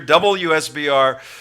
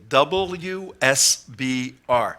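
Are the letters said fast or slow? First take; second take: fast; slow. First: The letters are said quickly. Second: The letters are said slowly. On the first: "I know I said that quickly" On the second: "I'll say it more slowly"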